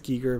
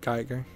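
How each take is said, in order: First: The name is said with its original pronunciation. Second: The name is said with an anglicized pronunciation. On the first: This is how the name is properly said. "It's pronounced Giger" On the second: This is how most Westerners say the name. "most uh, Westerners pronounce it uh"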